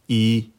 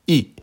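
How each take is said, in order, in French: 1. Le ton reste haut et stable. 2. Le ton tombe brusquement depuis le haut. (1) "au premier ton, se prononce" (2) "Quatrième ton"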